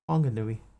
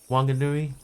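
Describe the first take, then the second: First: The name begins with a breathy HW sound. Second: The name begins with a plain W sound. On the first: This matches how the spelling looks to an English reader. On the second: This is the older way of saying it. "It used to be just with a W"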